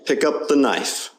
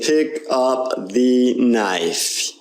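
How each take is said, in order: First: The word 'the' has a weak, reduced vowel. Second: The word 'the' has a full, clear vowel. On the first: The speaker calls it right. "We're saying pick up the knife" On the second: The speaker calls it wrong. "we're not saying pick up the knife"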